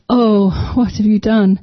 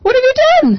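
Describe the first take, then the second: First: It sounds sad and heartbroken. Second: It sounds angry and scolding.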